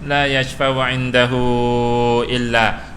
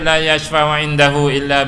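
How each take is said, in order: First: The final vowel of indahu is long. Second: The final vowel of indahu is short. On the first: The speaker calls it right. "ini tawilah, mad silah panjang" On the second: The speaker calls it wrong. "tak boleh macam tu"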